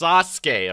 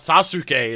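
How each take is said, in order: First: The stress is on the first syllable. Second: The stress is on the second syllable. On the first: The speaker calls it right. "it's the first syllable on Sasuke" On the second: The speaker calls it wrong. "That's why it's not Sasuke"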